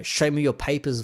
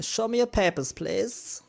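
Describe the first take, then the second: First: Said in the usual way. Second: Much higher mock demand for papers; a hammed-up border official; officious checkpoint guard. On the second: Mocking vaccine pass rules as a higher mock wartime guard.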